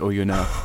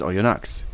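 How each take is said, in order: First: The final x sound is left silent. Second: The final x sound is clearly pronounced. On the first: This is the official way of saying it. "Mate, it's Oyonnax. It's really obvious" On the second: This is the southern French way of saying it. "auf südfranzösische Art immer Oyonnax ausgesprochen"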